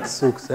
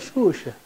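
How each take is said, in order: First: The x letters sound like ks. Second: The x letters sound like sh. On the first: The speaker calls it wrong. "Senão nós assistiríamos show da Xuxa. E não é Xuxa" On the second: The speaker calls it right. "é Xuxa"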